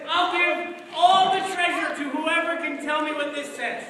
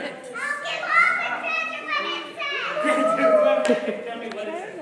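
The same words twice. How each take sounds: First: Said in the usual way. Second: High, loud pleading offer; desperate king. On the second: Acted. King offering treasure to any reader, high and pleading. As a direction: beg like a frantic king.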